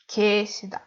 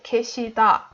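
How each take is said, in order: First: The stress is on the first syllable. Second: The stress is on the last syllable. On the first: The speaker calls it wrong. "we don't say the stress on 게" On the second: The speaker calls it right. "instead we say 계시다 for da"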